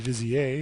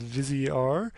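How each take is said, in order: First: The name ends in the French way. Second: The name ends with a clearly sounded final R. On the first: It follows the name's French origin. "that should be Vizier if I know my French" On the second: It follows the capital R in the name. "I'm assuming that's the correct pronunciation of this because they capitalized the R"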